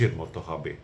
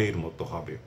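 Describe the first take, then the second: No difference in how they are said.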